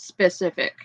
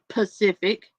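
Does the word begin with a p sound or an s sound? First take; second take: s sound; p sound. First: The word starts with an s sound before p. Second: The word starts with a p sound, no s. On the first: The speaker calls it right. "It's specific" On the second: The speaker calls it wrong. "I had a hard time mispronouncing that"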